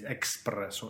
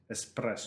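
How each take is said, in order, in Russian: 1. Произносится со звуком k перед s. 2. Произносится без звука k перед s. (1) "Не надо говорить экспрессо" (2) "Кофе называется эспрессо"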